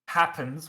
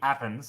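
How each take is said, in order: First: The initial H is pronounced. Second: The initial H is dropped.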